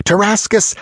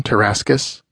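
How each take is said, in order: First: Tarascus cried out much higher; calling out. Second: Said in the usual way. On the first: Acted. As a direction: fling the name out in exultation. Calling out companions in triumph. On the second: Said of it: "name in plain narration".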